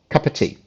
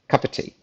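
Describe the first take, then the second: The two takes are said the same way.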